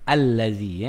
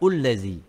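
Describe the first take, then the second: First: The word begins with an 'a' vowel. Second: The word begins with a 'u' vowel. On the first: The speaker calls it right. "Bukan illazi, bukan ullazi" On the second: The speaker calls it wrong. "bukan ullazi"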